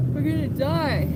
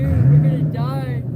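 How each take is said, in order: First: A frantic, high plea; high panicked cry. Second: Low, loud despairing wail. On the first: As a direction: pitch it up in panic. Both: Real, not acted. Freezing, despairing on a bench.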